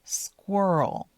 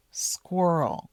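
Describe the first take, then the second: No difference in how they are said.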